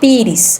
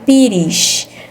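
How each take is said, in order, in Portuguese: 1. A palavra termina com um som de s simples. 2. A palavra termina com um som de sh. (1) "Aqui em Minas eu falo pires" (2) "vai ter som de C H"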